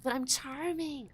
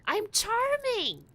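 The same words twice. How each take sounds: First: Playful insistence. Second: High, slow, drawn-out whine; exaggerated insistence. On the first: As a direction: insist on your own charm. Insisting on own charm, first take. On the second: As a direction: stretch CHARMING up high, then let it fall. Insisting harder, second take. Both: Real, not acted.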